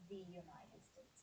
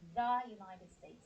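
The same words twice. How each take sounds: First: 'The' is said with a long 'thee' sound. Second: 'The' is said with a short 'thuh' sound. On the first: The speaker calls it wrong. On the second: The speaker calls it right. "U is a consonant sound, not a vowel sound. So we say"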